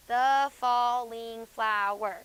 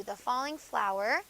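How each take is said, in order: First: Syllables counted out. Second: Said in the usual way. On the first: Shown as a demonstration. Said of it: "That's five". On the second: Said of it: "there's five syllables".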